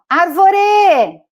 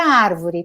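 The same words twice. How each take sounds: First: It is shouted with stress on the last syllable. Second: The stress falls on the first syllable. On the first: The speaker calls it wrong. "Que a sílaba forte é a última. E não é" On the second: The speaker calls it right. "o sílaba forte é o ar"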